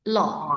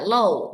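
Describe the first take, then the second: First: The vowel stays open like aw throughout. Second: The vowel closes into a w glide. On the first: The speaker calls it right. "tetap terbuka kayak seperti A O" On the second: The speaker calls it wrong. "Kalau W-nya dibaca kan nanti akhir dari mulutnya itu kan mengatup ya"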